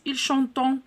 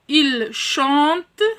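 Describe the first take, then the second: First: The ending is voiced as a nasal vowel. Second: The ending is left silent. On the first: The speaker calls it wrong. "je ne dois pas prononcer ici il chantant" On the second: The speaker calls it right. "Ent ne se prononce pas"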